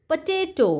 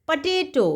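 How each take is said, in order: Both takes have the same delivery.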